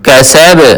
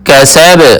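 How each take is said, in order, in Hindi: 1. अंतिम b झटके के साथ छोड़ा जाता है। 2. अंतिम b झटके के साथ छोड़ा जाता है।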